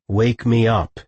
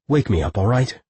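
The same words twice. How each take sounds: First: Firm, emphatic order; commanding. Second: Said in the usual way. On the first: A narrator's reading. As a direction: voice of leadership. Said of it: "he commanded, assuming his voice of leadership".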